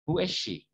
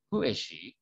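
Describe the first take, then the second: First: The pitch falls at the end. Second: The pitch rises at the end. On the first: The speaker calls it right. "nada belakangnya itu turun" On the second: The speaker calls it wrong. "Bukan who is she? Bukan gitu loh ya"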